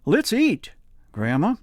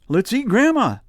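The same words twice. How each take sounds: First: There is a pause before "Grandma." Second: It runs on with no pause before "Grandma."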